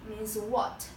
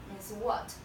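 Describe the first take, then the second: The two takes are said the same way.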